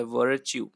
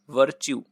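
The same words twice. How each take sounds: First: वर्च्यू with its middle R clearly sounded. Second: Said in the usual way. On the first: Shown as a demonstration. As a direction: bring out the R before च्यू in वर्च्यू. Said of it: "यहाँ पे एक रा लगा होता है".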